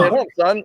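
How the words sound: There is a pause before son.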